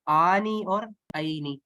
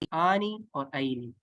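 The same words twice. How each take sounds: First: آنی اور عینی said slowly, each long ending drawn out clearly; stretched ending sounds. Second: Said in the usual way. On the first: Shown as a demonstration. Teacher drawing students' ear to the endings, slow and clear. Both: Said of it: "آواز پہ آپ نے غور کرنا ہے".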